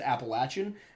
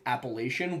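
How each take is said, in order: First: The third syllable has a short A vowel. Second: The third syllable has a long A vowel. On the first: This is the southern way of saying it. "you must pronounce it Appalachian" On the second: This is the northern way of saying it. "It becomes the eighth deadly sin to pronounce it Appalachian once you're down south"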